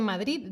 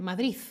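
First: Said in the usual way. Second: "Madrid" acabado en zeta, "Madriz"; acento madrileño. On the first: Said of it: "no dicen Madrid". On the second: Shown as a demonstration. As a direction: di "Madrid" como en Madrid, con z final. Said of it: "La gente de Madrid, eh, con su acento". (acento de Madrid, "Madrid" con zeta final)

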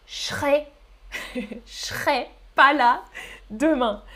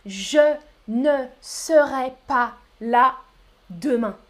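First: Je serai squeezed to ch'rai; fuse je serai into a hushing ch'rai; contracted form. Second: Je ne serai syllable by syllable, with ne; slow full form. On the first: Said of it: "j'ai prononcé". (« je serai » contracté en ch'rai) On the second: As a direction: spell out je ne serai slowly. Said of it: "Je parle rapidement". (« je ne serai » lentement, chaque syllabe) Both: Shown as a demonstration.

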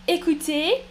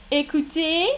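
Both takes have the same delivery.

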